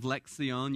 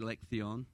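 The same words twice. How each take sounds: First: The c is said like an s sound. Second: The c is said like a th sound. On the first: "Instead of" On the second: "Castilian Spanish, they kind of have a lisp"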